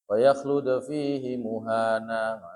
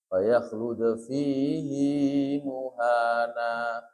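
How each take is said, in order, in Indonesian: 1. Vokal akhir fihi pendek. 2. Vokal akhir fihi dibaca panjang. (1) "harusnya dibaca pendek, harokatnya biasa" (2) "Tapi di sini"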